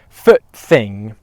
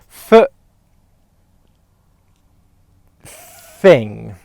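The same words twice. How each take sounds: First: The phrase is said at a quicker pace. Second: The phrase is said at a slower pace. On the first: "A bit quicker" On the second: "I'll count you through it"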